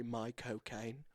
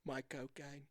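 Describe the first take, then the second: First: Michael Caine said slowly in a lower, mock British accent. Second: Said in the usual way. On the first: Shown as a demonstration. Showing his cohost how to do it, slow mock British accent. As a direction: drawl Michael Caine like a half-serious British impression. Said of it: "to do a Michael Caine accent, you just say". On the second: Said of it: "to do a Michael Caine accent".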